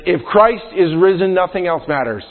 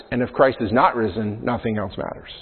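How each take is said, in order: First: Christ lifted and stressed, then settling; emphatic quote. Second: Softer, dropping to near silence on "matters"; hushed contrast. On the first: Pastor reading the historian's quote, first half emphatic. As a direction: declare it with conviction. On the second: Pastor reading the historian's quote, second half hushed. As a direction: let the bleak half fade away. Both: Real, not acted. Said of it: "it says".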